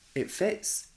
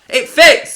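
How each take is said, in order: First: It is said quietly and flatly. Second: It is said loudly and excitedly.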